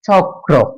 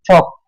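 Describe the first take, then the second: First: The k is followed by an r sound. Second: The r becomes k, giving a doubled k. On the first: The speaker calls it right. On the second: The speaker calls it wrong.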